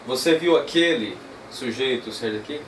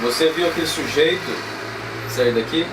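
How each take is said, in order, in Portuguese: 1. A palavra aquele tem a tônica mais forte. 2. A palavra sujeito tem a tônica mais forte. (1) "Esquece agora o viu e vamos para o aquele" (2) "Aqui meio que pega no pé do, do sujeito"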